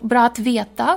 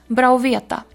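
First: The t of att is clearly pronounced. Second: The t of att is dropped.

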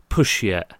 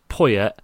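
First: The middle consonant is a sh sound. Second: The middle consonant is a y sound.

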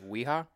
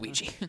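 First: The word is read with Spanish letter sounds. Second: The word is read with English letter sounds. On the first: The speaker calls it wrong. "they pronounce it" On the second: The speaker calls it right. "It's Ouija"

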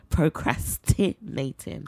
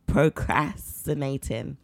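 First: The T sound in the word is pronounced. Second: The T sound in the word is dropped. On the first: The speaker calls it right. "That was it" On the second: The speaker calls it wrong. "And then the T as well"

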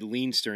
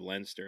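First: The name is said in an American way. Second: The name is said in an Irish way. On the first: This is how an outsider says the name. The speaker calls it wrong. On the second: This is how locals say the name. The speaker calls it right.

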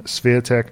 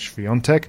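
First: The name is said with English pronunciation. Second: The name is said with Polish pronunciation. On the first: "the English version" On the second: "the Polish version"

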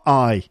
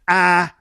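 First: The vowel glides from 'ah' toward 'ee'. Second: The vowel is a single open 'ah' sound. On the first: This is how the word is spoken. "It's definitely a diphthong" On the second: This is how the word is sung. "But in songs, it's always ah"

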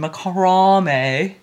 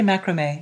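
First: The word has the British pronunciation. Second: The word has the American pronunciation. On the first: "you weirdos over here say, aluminium and macrame" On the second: "what do you say in England? You don't say macrame"

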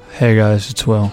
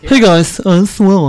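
First: It is said in his natural voice. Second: It is said in a Kip impression.

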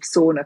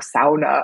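First: It is said with an ordinary English pronunciation. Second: It is said with a Northern, Finnish-style pronunciation.

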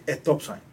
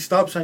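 First: An e sound is added before the s. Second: It starts directly with the s sound. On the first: "you put the E in front of every S" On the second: "instead of saying stop sign"

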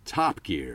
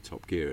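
First: The stress falls on the word Top. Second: The stress falls on the word Gear. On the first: This is how Americans say it. "they'd be like, Top Gear, and you go, oh, you've moved the emphasis there" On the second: This is how the makers of the show say it. "we make the TV show Top Gear"

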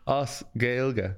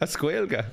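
First: It starts with 'os' followed by a 'gaeilge' sound. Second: It starts with 'a' followed by a 'squalga' sound. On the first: The speaker calls it right. "A-S is Os" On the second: The speaker calls it wrong. "What did you just say?"

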